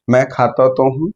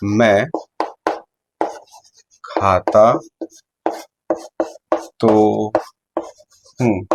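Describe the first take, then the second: First: तो leaned on to insist; stress on तो. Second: Each word said slowly apart; slow emphatic. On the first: Teacher showing an insistent reply with तो stressed. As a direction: insist with a push on तो. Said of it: "अगर मैंने ऐसे बात करी". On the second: Teacher spacing out each word to stress it. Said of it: "जैसे example के तौर पर". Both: Shown as a demonstration.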